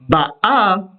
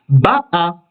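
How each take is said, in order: First: The stress is on the last syllable. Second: The stress is on the first syllable. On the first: She comes, in the present. "si on place l'accent sur la dernière syllabe, ba'a, vous avez bien vu que je suis monté au A" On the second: She came, in the past. "si l'on place l'accent sur l'avant-dernière syllabe, ba'a, là vous avez bien entendu que c'est le ba qui est accentué"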